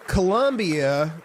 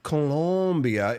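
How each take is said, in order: First: The second syllable has no clear 'o' vowel. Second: The second syllable has a clear 'o' vowel. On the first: It names the town in Missouri. "Colombia is in Missouri" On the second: It names the country in South America. "it's the O in, in it that's really the important part there"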